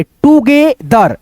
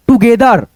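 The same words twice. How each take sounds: First: Broken into syllables. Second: Said in the usual way. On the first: Shown as a demonstration. Teacher sounds out together for learners, slow syllables. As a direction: draw out each syllable of "together". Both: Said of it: "इसको क्या पढ़ेंगे".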